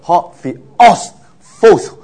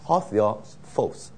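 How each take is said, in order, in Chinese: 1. theos 和最后一个词都有重音。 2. 只有最后一个词有重音。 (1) "不是Hotheos False，那就读得很辛苦，好像一步一步太多重音了" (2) "重音放在False"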